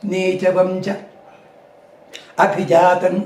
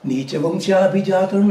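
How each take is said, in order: First: It is split into two separate words. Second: It is run together as one word. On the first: The speaker calls it wrong. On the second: The speaker calls it right.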